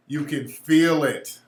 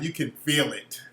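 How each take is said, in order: First: Slow, deliberate stress on "feel"; emphatic repeat. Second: Said in the usual way. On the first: Real, not acted. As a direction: FEEL drawn out slowly.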